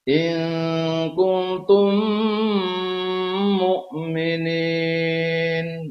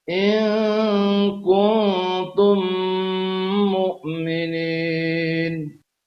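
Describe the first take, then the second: No difference in how they are said.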